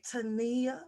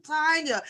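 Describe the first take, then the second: First: "Tania" said tuh-NEE-uh, stress moved to the middle; "Tania" with the stress on the NEE, a bit spicy. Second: "Tanya" said TAN-ya, stress on the first syllable; plain "Tanya", first syllable stressed. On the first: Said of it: "I just wanna say Tania, 'cause it's more spicy". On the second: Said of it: "but I know it's Tanya". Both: Shown as a demonstration.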